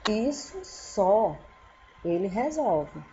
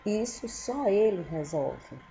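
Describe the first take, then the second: First: There is a pause after 'só'. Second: There is no pause after 'só'. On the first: "uma coisa pouca e a pessoa pode resolver" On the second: "Se eu tirar a vírgula"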